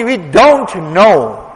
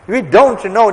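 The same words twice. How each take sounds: First: Drawn out slowly, leaning on don't; slow, weighty repeat; slow emphatic. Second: Said in the usual way. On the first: Real, not acted. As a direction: let it sink in slowly.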